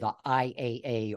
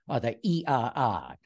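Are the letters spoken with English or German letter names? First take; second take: English; German. First: The letters are spoken with English letter names. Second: The letters are spoken with German letter names. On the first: "they call that show the IAA" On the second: "as they pronounce it in Germany"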